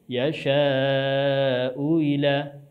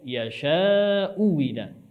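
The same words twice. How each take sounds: First: The second hamzah is softened, not fully stopped. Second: The second hamzah becomes a full w sound. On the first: "Yang pertama dibaca dengan tashil" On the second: "hamzah kedua dibaca dengan ibdal menjadi huruf waw"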